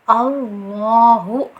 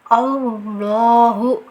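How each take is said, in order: First: The lips round, adding a w sound. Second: The lips round, adding a w sound.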